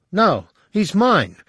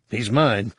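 First: "mine" said higher, louder, slower; stress on mine. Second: Said in the usual way. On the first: Acted. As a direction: lean hard on "mine".

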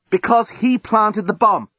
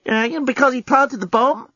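First: High, slow, emphatic statement; exasperated answer. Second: High-pitched hesitant query, rising on PLANTED; timid question. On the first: Journalist answers captive's why, exasperated and emphatic. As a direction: spell it out, leaning on HE. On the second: Lucy asks why he killed him, childishly tentative. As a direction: ask it back like an unsure child. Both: A narrator's reading.

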